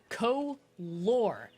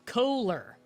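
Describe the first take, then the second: First: The two vowels sound the same as each other. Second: The two vowels sound different from each other. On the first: The speaker calls it wrong. "are both the same O noise" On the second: The speaker calls it right. "Both O's are pronounced differently in color"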